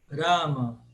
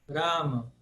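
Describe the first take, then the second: The two takes are said the same way.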